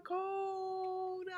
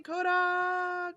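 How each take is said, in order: First: Higher and softer, like an echo fading; hilltop echo. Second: High-pitched call across a valley; calling from a hilltop. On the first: Repeating the viewer's name as a distant echo, softly. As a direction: let the name fade like an echo off the hills. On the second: Greeting a faraway viewer by yodeling her name, high call. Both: Pretend. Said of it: "like I'm high on a hilltop".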